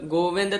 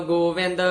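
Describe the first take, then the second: Both takes have the same delivery.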